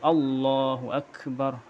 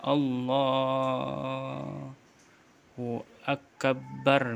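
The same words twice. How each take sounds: First: The b sound is single and short. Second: The b sound is doubled and held. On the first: The speaker calls it right. "tapi Allahu akbar" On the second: The speaker calls it wrong. "mentasydidkan huruf ba"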